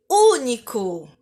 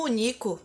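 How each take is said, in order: First: "Único" with a long, strong first Ú; Ú-nico, stressed on the first syllable. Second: "único" mispronounced as u-NI-co; quick u-NÍ-co, short U; stress on NI. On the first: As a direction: draw out the U of "Único". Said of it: "pra deixar a vogal U mais forte". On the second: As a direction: shift the stress of "único" onto the middle syllable. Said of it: "Se eu não usasse o acento". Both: Shown as a demonstration.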